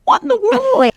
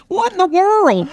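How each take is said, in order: First: High-pitched astonished What in the world; amazed high exclaim. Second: Said in the usual way. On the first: Retold or imitated. Her daily reaction to her luck, high and amazed. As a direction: squeal What in the world with disbelief. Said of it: "every day I go". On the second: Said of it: "I wrote a book that's called What in the World".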